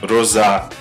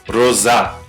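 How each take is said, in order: No difference in how they are said.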